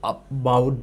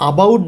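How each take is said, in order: First: Slow, soft "about" with the opening vowel reduced; "about" drawn out, stress on bout; weak-start about. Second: "about" with a full, clear opening a, not reduced; "about" with a strong a at the start; full-vowel about. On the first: Teacher shows how he says about, slow and soft. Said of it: "এই যে আমি বলছি". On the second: Teacher shows the wrong full-vowel version of about. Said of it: "about না বলে আমি বলছি about". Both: Shown as a demonstration.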